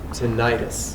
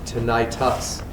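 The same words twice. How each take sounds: First: The word ends with a 'tis' sound. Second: The word ends with a 'tus' sound. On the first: The speaker calls it wrong. "not tinnitus. And everybody says tinnitus and it's wrong" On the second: The speaker calls it right. "That last letter is a U, not an I"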